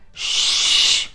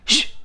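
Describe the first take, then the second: First: The shush is drawn out and long. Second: The shush is short and quick. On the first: "make that shush longer" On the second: "make it quicker with pauses"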